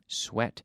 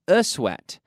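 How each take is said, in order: First: The word begins directly with an s sound. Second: An extra e vowel comes before the s. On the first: The speaker calls it right. "it's pronounced like S, wet, sweat" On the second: The speaker calls it wrong. "not a sweat. There's no E in front of the S"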